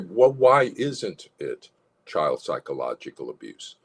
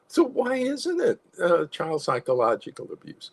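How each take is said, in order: First: It is said in a forceful, asserting tone. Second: It is said in a softened, gentle tone.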